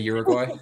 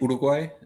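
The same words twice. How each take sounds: First: It is said with an English pronunciation. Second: It is said with a Spanish pronunciation. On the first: English speakers understand it. "so I say Uruguay" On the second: English speakers do not recognize it. "if I say Uruguay, nobody knows what I'm talking about"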